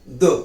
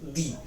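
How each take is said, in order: First: The word is said with a short 'uh' vowel. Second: The word is said with a long 'ee' vowel. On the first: The next noun begins with a consonant. "व्यंजनाने सुरुवात असेल तर द" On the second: The next noun begins with a vowel. "स्वराने सुरुवात होत असेल दी"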